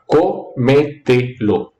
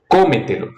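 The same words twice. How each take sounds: First: "cómetelo" slowly broken into co, me, te, lo; syllable by syllable. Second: Said in the usual way. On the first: Shown as a demonstration. Teacher showing students the four syllables of cómetelo, syllable by syllable. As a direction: count out each syllable of "cómetelo" with small gaps. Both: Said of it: "co tiene cuatro".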